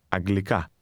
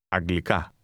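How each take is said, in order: The two takes are said the same way.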